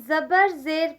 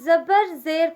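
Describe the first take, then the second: No difference in how they are said.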